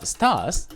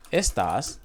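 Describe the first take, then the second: First: Estás with the final tás stressed; stress on last syllable. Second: Estas stressed on the opening es; stress on first syllable. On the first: Teacher contrasting it with these, estás stressed on TÁS. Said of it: "we have to pronunciate differently". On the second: Teacher showing the word for these, estas stressed on ES. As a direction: say estas with weight on ES, not tas. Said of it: "in Spanish is these". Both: Shown as a demonstration.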